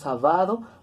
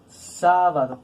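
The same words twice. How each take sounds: First: The stress falls on the second syllable. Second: The stress falls on the first syllable. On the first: The speaker calls it wrong. "tiene que sonar como palabra grave" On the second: The speaker calls it right. "nosotros pronunciamos sábado"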